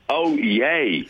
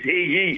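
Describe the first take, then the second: First: The call begins with an open vowel. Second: The call begins with an h sound. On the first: The speaker calls it right. "it's oh yay" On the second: The speaker calls it wrong. "everybody says hee-yee and it's not"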